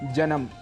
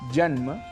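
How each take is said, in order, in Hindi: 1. 'm' से पहले एक अतिरिक्त स्वर जोड़ा जाता है। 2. 'm' से पहले कोई अतिरिक्त स्वर नहीं जोड़ा जाता। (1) "स्वरों को जोड़ भी देते हैं" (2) "शुद्ध उच्चारण"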